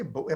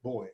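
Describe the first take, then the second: First: "Bowie" said as BOO-ee, in two syllables; "Bowie" with an ee ending; two-syllable pronunciation. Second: Put-on "Boy" as a single syllable, like a male child; "Boy" rhyming with toy; one-syllable pronunciation. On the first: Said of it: "We say Bowie". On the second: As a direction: say "Boy" for buoy, with no ee ending. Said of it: "how it's pronounced Boy". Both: Shown as a demonstration.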